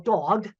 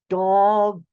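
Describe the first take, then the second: First: The word is said at normal speed. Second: The word is said slowly and carefully enunciated.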